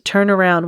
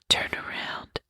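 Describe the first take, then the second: First: It is said in a normal voice. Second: It is said in a whisper.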